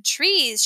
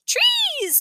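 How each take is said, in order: First: Said in the usual way. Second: Put-on very high, tiny-child squeal; toddler's voice. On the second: A narrator's reading. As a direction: pipe it up like a toddler. Toddler Tootsie echoes Grandma's word.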